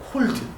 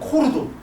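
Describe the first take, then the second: First: It is said as a plain single syllable. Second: Extra vowels are added, as in Japanese pronunciation. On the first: "콜드였어" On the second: "일본 애들이 오잖아요... 막 코르도 그래요"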